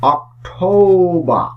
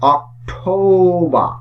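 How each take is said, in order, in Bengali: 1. শেষের র ধ্বনিটি নীরব থাকে। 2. শেষের র ধ্বনিটি নীরব থাকে।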